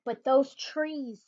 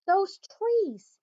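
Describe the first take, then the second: First: Those trees drawn out slowly; slow wonder. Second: Soar up on "trees" with delight; higher rapture. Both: Acted. Savoring the truffula trees.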